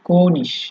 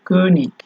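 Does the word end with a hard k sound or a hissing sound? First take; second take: hissing; hard k. First: The word ends with a soft hissing sound. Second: The word ends with a hard k sound.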